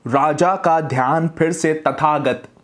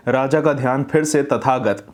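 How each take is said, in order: First: Slow, mouth opened wide on every syllable; over-open the jaw, slowly. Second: Mumbled jaw closed. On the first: Teacher shows the student how to open the jaw when reading, slow and wide-mouthed. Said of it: "जितना ज़्यादा open होकर बोल सकें बोलिए". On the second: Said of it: "मुंह बंद करके आप बोल रहे हैं". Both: Shown as a demonstration.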